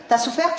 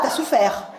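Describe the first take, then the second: First: "T'as souffert" rising at the end into a question; questioning rise. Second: Said in the usual way. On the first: Shown as a demonstration. Comedian teasing the mother with a rising question.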